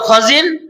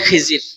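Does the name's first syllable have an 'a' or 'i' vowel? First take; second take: a; i. First: The first syllable has no 'i' vowel. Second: The first syllable has an 'i' vowel. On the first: This is the proper form of the name. The speaker calls it right. "সঠিক উচ্চারণ হলো খজির" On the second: This is the common everyday form. The speaker calls it wrong. "আমরা বলি খিজির"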